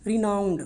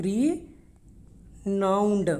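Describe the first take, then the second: First: Said in the usual way. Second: Very slow Renowned, long pause after RE; syllable-by-syllable pronunciation. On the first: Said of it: "कैसे इसकी pronunciation है?". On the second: Shown as a demonstration. Teacher showing how it is pronounced, broken in two. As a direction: say RE, wait, then a drawn-out NOWNED in Renowned. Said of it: "ये इसकी pronunciation है".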